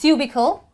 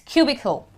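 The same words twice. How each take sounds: First: The first syllable does not sound like Q. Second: The first syllable sounds like the letter Q. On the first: The speaker calls it wrong. "It's not cubicle" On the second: The speaker calls it right. "It's Q"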